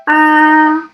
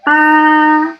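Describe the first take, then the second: First: The pitch stays high and level. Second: The pitch stays high and level.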